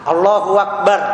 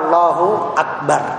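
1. Akbar disambung dengan bunyi w. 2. Akbar diawali dengan bunyi hamzah. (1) "Hamzah diganti dengan waw enggak boleh. Allahu Akbar itu salah" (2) "Yang betul adalah Allahu Akbar. ... Jadi pakai hamzah bukan pakai waw"

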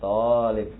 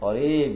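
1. Suku kata pertama punya vokal panjang. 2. Suku kata kedua punya vokal panjang. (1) "Jadi yang dipanjangkan itu huruf to-nya bukan huruf bukan lamnya. Ini talib gitu ya" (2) "Bukan talib gitu ya"

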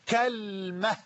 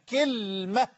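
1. الحركة الأولى فتحة، واللام بلا حركة. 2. الحركة الأولى كسرة، واللام بلا حركة. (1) "بفتح الكاف وتسكين اللام" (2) "بكسر الكاف وتسكين اللام"

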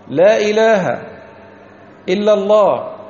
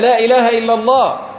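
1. توجد وقفة بعد الكلمتين الأولى. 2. تُقال العبارة بدون وقفة. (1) "يقولون لا إله ويسكتون، إلا الله" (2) "لا يقولونها هكذا"

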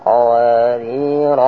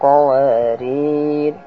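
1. Kata ini diakhiri dengan bunyi r. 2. Kata ini diakhiri dengan bunyi r.

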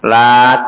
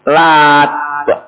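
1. Bunyi t di akhir pendek dan tunggal. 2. Bunyi t di akhir ditahan dan digandakan. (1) "Lat dibaca takhfif, lat itu aja" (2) "Simpelnya lat. Jadi taknya di tasdid"

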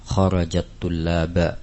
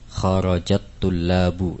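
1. Kata terakhir berakhir dengan vokal a. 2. Kata terakhir berakhir dengan vokal u. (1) "Tidak boleh dibaca dengan fathah ataupun kasrah" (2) "At-tullabu dibaca dengan harakat dhammah karena sebagai fa'il"

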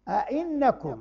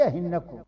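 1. الهمزة الثانية تُنطق همزة. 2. الهمزة الثانية تُنطق h. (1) "قل أنبئكم أئنكم" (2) "ماشي أهنكم"

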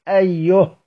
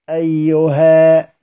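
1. تنتهي الكلمة بصوت الهاء. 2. تنتهي الكلمة بحرف المد الطويل ألف. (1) "نقف عليها بالهاء اتباعا للرسم ايه هكذا" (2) "بيقفوا عليها كأصلها بالألف"

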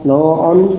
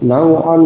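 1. Vokal pertama condong ke u. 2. Vokal pertama adalah a terbuka biasa.

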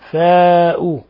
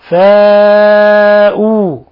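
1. الحركة بعد الحرف الأول تُقصَر. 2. الحركة بعد الحرف الأول تُمَدّ. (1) "لا نقول فاء" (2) "ولا بد هنا من إثبات الألف"

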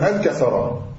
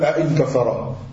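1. Une syllabe à coup de glotte commence le mot. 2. Deux syllabes distinctes à coup de glotte commencent le mot. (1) "takul an kassara" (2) "la takul a in kassara"

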